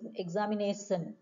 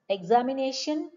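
First: The middle consonant is an s sound. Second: The middle consonant is an sh sound.

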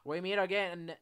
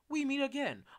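First: It is spoken in an Australian accent. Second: It is spoken in a British accent. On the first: "Finley having an Australian accent" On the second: "How about British?"

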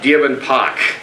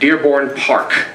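First: It is said in a Boston accent. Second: It is said in a standard, non-Boston accent. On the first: "It comes out Dearborn Park" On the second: "without effort"

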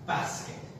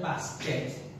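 First: The punch falls on the first syllable. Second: The punch falls on the second syllable. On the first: The speaker calls it right. "the punch should be on the b and not the k" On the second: The speaker calls it wrong. "Instead of basket"

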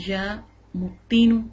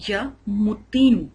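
The two takes are said the same way.

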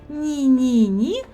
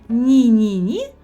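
The two takes are said the same way.

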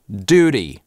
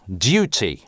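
First: American accent, with no y glide after the consonant. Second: British accent, with a y glide after the consonant. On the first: "Американцы произносят эти слова как" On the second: "в классическом ар пи говорят"

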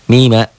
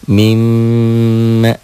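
First: The m is single, short and unheld. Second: The m is doubled, held and nasalized.

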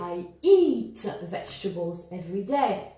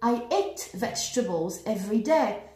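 First: The vowel in 'eat' is long. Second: The vowel in 'eat' is short. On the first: The speaker calls it right. "Eat with a long, long E" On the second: The speaker calls it wrong. "It just doesn't make any sense"

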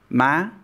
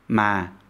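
First: The syllable is said in an excited-sounding tone. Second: The syllable is said in a sad-sounding tone. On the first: "excited or exasperated tone" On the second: "sad tone"

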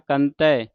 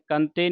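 First: It is said as two separate words. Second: It is run together into one word. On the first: The speaker calls it right. "ਕੰਤ ਹੈ ਬਾਹਰੀ" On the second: The speaker calls it wrong. "ਕੰਤੇ ਨਹੀਂ ਪੜ ਦੇਣਾ"

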